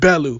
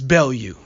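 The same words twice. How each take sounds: First: The name is said with an American pronunciation. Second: The name is said with a non-American pronunciation. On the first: The speaker calls it wrong. "I'm an American, so I pronounce it Bellew" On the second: The speaker calls it right. "but it's Bellew"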